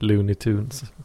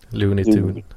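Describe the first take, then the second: First: The final s of Tunes is voiceless. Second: The final s of Tunes is voiced. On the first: The speaker calls it wrong. "nu gjorde jag nog fel igen där" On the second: The speaker calls it right. "Jag tror det ska vara ett voice-at acid Tunes"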